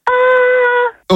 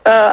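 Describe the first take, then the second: First: It is said with a high pitch. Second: It is said with a low pitch.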